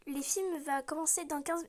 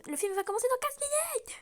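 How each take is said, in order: First: Said in the usual way. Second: Line pitched up, pressing; higher, impatient retake. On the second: Acted. Girl reminding Max the film starts soon, higher and pressing. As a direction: push it higher and urgent, like she's tired of waiting.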